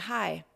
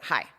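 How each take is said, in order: First: The greeting sounds polite and friendly. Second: The greeting sounds curt and hostile. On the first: It invites a harmless, courteous exchange. The speaker calls it wrong. "you decide to be polite" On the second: It tells the other person to back off. The speaker calls it right. "the way you would say F U C K off to someone"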